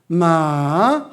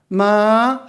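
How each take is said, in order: First: It is said with the tone for 'dog'. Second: It is said with the tone for 'horse'. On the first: It means a dog. "강아지" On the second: It means a horse. "마 하면은 말"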